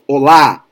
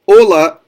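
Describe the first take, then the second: First: The stress is on the second syllable. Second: The stress is on the first syllable. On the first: "la is the strong syllable" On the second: "Hola is in Mexico"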